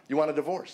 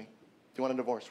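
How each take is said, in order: First: Said in the usual way. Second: Casual offhand. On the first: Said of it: "that's how she said it". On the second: Retold or imitated. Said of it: "as if you want to take out the trash".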